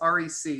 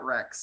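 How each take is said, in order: First: It is spelled out as three separate letters. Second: It is said as one word, like wreck. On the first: The speaker calls it right. "please tell everybody it's R E C" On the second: The speaker calls it wrong. "not R E C"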